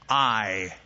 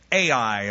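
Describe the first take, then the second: First: The name is said like the word 'eye'. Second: The name is not said like 'eye'. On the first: The speaker calls it right. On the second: The speaker calls it wrong.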